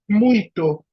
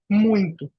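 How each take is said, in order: First: It is said as spelled, without an n sound. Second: It is said with an added nasal n sound. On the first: This is how the word is written. "a gente escreve muito" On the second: This is how people actually say it. "e fala muito"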